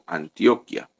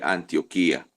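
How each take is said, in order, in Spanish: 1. La 'i' cerca del final no es tónica. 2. La sílaba tónica cae en la 'i' cerca del final. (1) "un hermano leyó Antioquia" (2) "como lleva tilde en la I, leemos Antioquía"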